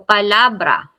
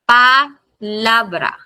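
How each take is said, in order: First: Said in the usual way. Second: Palabra slowly split as pa-LA-bra; stressed syllable drawn out. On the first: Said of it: "Ang stress natin dito". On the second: Shown as a demonstration. Teacher showing where stress falls, slow pa-LA-bra. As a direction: break up "palabra", leaning on LA. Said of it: "Ang stress natin dito ay nandito sa letter A".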